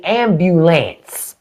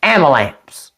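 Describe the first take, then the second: First: Said in the usual way. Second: AMBULANCE as "am-buh-lamps", no "byoo"; country "am-buh-lamps"; down-South pronunciation. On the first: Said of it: "my mind wants to say ambulance". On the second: Shown as a demonstration. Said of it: "that's not how they say it down there".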